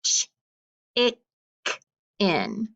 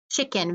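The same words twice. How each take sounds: First: "ch-, ik-, in" with a clear gap between each chunk; sounded out in chunks. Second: Said in the usual way. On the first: Shown as a demonstration. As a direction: break it apart sound by sound: "ch-, ik-, in". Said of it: "let's break that apart". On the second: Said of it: "we need to read it together".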